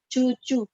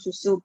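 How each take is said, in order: First: The word begins with a 'ch' sound. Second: The word begins with an 's' sound. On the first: The speaker calls it wrong. "ih kok dia ngomongnya cucu gitu ya" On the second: The speaker calls it right. "bukan cucu tapi susu"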